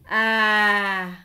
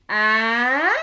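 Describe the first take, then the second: First: The pitch falls throughout. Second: The pitch rises throughout. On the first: "l'accent descendant représenté par un accent grave" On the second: "c'est un accent montant représenté par l'accent aigu"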